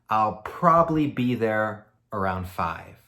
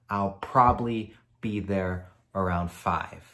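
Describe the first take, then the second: The two takes are said the same way.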